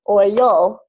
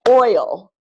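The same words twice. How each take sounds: First: The stress is on the second syllable. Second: The stress is on the first syllable. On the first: The speaker calls it wrong. "If I clap it the other way" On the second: The speaker calls it right. "the stress is on the first syllable"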